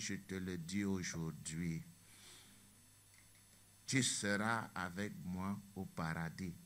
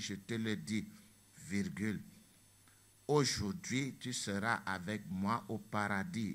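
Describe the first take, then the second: First: The pause comes after 'aujourd'hui'. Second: The pause comes before 'aujourd'hui'.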